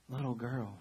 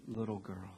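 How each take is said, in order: First: Said in the usual way. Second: Put-on softly, gently, like waking a sleeping child; tender murmur. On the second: Jesus softly calling the dead girl, tender and hushed. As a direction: hush it, a tender call.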